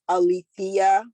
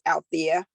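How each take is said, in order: First: The name is said with four syllables. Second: The name is said with three syllables. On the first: The speaker calls it right. "and it is Alethea" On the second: The speaker calls it wrong. "my name is mispronounced as Althea"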